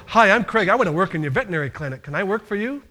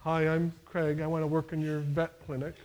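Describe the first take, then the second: First: Brisk, clear, eager introduction; confident job applicant. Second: Much softer, meek introduction; under-confident interview mumble; timid job applicant. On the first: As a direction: pitch the greeting up and speak out. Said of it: "No, you wanna go". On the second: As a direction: mumble it shyly, barely audible. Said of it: "you don't wanna go". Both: Shown as a demonstration.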